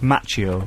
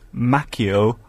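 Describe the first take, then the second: First: The name is said in a Spanish style. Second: The name is said in an Italian style. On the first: The name comes from Spanish ancestry. The speaker calls it wrong. "instead of Macchio" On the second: The name comes from Italian ancestry. The speaker calls it right. "the correct pronunciation is Macchio"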